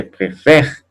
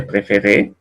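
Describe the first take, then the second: First: "préfère" stopping on the R after open eh. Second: "préféré" with a sounded closed ay at the end; three syllables in "préféré", all closed E's; closed final É. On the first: Teacher repeating the contrast for students, open È. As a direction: silent last E in "préfère", open è before R. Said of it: "y acá dice préfère". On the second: Teacher repeating the contrast for students, closed É. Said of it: "Acá dice préféré". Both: Shown as a demonstration.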